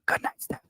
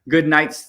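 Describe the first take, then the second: First: It is said in a soft whisper. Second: It is said in a normal, audible voice. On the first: "I'm gonna whisper because Steph's sleeping" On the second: "I won't yell too loud"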